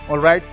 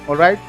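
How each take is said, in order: The two takes are said the same way.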